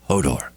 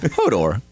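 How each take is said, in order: First: It is said in an angry way. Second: It is said in a curious, questioning way. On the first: "it's like angry Hodor" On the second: "Curious Hodor"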